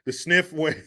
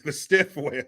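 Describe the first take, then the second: First: Says sniff instead of stiff; slip of the tongue. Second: Stiff said clearly as the fix for sniff; self-correction. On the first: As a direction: trips on the word, sniff for stiff. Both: Real, not acted.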